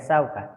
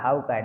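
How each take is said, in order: First: The word begins with an s sound. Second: The word begins with an h sound.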